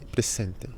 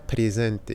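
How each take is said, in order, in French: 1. La consonne du milieu est un son s sifflant. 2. La consonne du milieu est un son z sonore. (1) "la S siempre se pronuncia S" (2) "pas presente"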